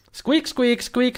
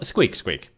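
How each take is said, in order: First: High squeaking critter voice; squeaky ferret. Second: Said in the usual way. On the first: Pretend. Voicing the ferret.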